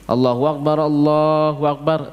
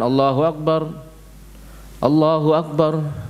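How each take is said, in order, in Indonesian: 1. Kedua frasa diucapkan dalam satu napas. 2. Setiap frasa diucapkan dengan napasnya sendiri. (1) "Dua takbir, ya ini ... satu nafas" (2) "Jangan ... enggak"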